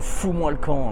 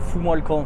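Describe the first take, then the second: First: It is said in a forceful, emphatic tone. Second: It is said in a soft, polite tone. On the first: The speaker calls it right. "Faut le dire avec une certaine intonation" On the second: The speaker calls it wrong. "Tu vas pas dire, euh, j'ai pas un animal ou euh, s'il te plaît"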